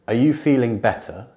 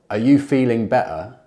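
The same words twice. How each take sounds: First: The T is clearly released. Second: The T is stopped in the throat. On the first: "compare the true T" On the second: "and the glottal T"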